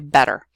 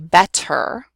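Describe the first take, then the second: First: The middle consonant is a quick D-like tap. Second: The middle consonant is a clear, crisp T. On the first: This is how most speakers in the United States say it. "we say better. And it's actually what's called a tap" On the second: This is how speakers outside the United States may say it. "We don't say better"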